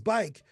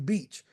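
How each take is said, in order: First: The name is said with an 'eye' vowel. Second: The name is said with an 'ee' vowel. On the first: The speaker calls it right. "I learned it was Bike" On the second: The speaker calls it wrong. "I used to call it Catherine Beach"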